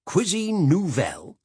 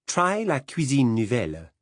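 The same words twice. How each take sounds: First: Cuisine nouvelle sneered slowly, much higher and louder; mock the words Cuisine nouvelle with scorn; disdainful. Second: Put-on la cuisine nouvelle said with a proud French accent. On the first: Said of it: "he said disdainfully". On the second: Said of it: "proud of her French accent".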